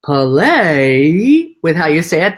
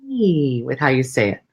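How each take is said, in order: First: "Play" loud, long and rising, as if pondering; thinking, questioning PLAY. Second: "Play" stretched long, the rest falling away lower; drawn-out PLAY. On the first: Coach showing what a thinking place sounds like, "Play" slow and questioning. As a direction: stretch "Play" upward like a question being mulled. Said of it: "That's coming from a thinking place". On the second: Coach showing a playful way to say it, long drawn-out "Play". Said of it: "but also play with how you say it". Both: Shown as a demonstration.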